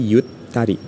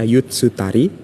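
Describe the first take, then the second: First: The t is held long, doubled, without tsu. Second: A full tsu syllable is said before ta. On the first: The speaker calls it right. "tapi yutari ya" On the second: The speaker calls it wrong. "bukan dibaca yutsutari"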